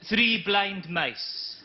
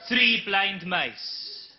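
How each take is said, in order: First: Slow solemn poem reading; poem recital. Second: Even slower solemn repeat; repeated poem. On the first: Comic reciting a poem to the audience, deadpan slow. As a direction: recite it very slowly, with gravity. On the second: Comic repeating his poem, deadpan slow. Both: Acted. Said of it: "a couple of poems".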